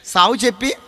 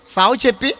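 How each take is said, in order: Both takes have the same delivery.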